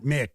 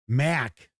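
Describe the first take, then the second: First: The vowel is the short 'i' of 'mick'. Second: The vowel is the open 'a' of 'mack'. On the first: The speaker calls it wrong. "not Mick" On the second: The speaker calls it right. "pronounced Mac"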